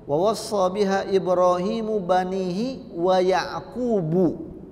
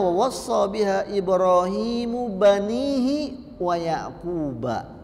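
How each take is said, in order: First: The final name ends with a 'u' vowel. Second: The final name ends with an 'a' vowel. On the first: Yaqub is also one who gives the advice. "berarti dia harokatnya dhammah" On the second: Yaqub is one who receives the advice. "dengan mansub sebagai maf'ulun bih"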